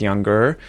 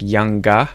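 First: The final R is pronounced. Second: The final R is silent. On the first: "what an American would say" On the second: "she said like younger"

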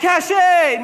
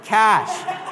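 First: It has two syllables, ending in an 'ay' sound. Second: It has one syllable, sounding like 'cash'. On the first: The speaker calls it wrong. "Someone's like, "Cachet." No" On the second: The speaker calls it right. "It's actually called cash"

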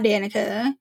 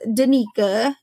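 First: The middle syllable is a short, weak 'nih' sound. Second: The middle syllable sounds like 'nee', as in Nika. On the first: The speaker calls it wrong. "not Danica" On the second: The speaker calls it right. "Her name is Danica"

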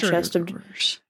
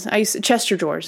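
First: Chest and of are said as separate words. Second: Chest and of merge into one word, Chester. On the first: "I said it right that time" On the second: "Chester drawers is what a lot of us used to call them"

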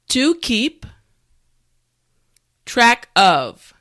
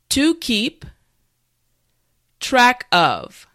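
No difference in how they are said.

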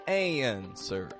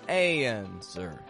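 First: The first vowel glides through a y-like sound into the N. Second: The first vowel glides through a y-like sound into the N.

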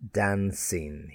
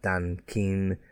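First: The C is said as a soft S sound. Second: The C is said as a hard K sound. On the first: The speaker calls it right. "Again, the S sound" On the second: The speaker calls it wrong. "Not Dan Keen"

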